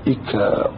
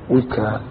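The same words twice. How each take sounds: First: إكاء opening on a glottal stop and i; initial hamza. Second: وكاء opening on a w sound; waw kept. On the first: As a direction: say إكاء as i-kaa, with no w. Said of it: "يجوز أن تقول فيها". (إكاء بهمزة مكسورة) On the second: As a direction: say وكاء as wi-kaa. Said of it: "الواو المكسورة". (وكاء بالواو المكسورة) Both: Shown as a demonstration.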